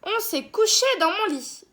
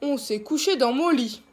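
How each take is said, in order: First: It is said in a medium-pitched voice. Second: It is said in a big, deep voice.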